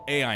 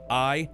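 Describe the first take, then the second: First: It is said as two letter names. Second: It is said as one letter name. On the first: The speaker calls it wrong. "I'd been mispronouncing it the entire time" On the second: The speaker calls it right. "We're just gonna call it I"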